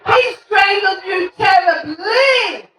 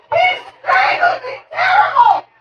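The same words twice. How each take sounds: First: Slow, drawn-out "terribly"; teacher's grammar correction. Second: Put-on high-pitched frantic kid voice; kid crying out. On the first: Acted. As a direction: correct the kid, stretching the word "terribly" slowly. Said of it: "You're using your adverbs incorrectly". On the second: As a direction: squeal it like a child tattling mid-fight. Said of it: "And this kid goes".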